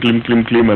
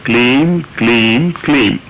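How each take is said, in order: First: The syllables are run together indistinctly. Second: Each syllable is pronounced distinctly and separately. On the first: The speaker calls it wrong. "అనకండి" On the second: The speaker calls it right. "చాలా స్పష్టంగా పలకాలి అది"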